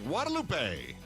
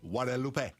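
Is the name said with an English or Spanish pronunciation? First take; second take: English; Spanish. First: The name is said with English pronunciation. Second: The name is said with quick Spanish pronunciation.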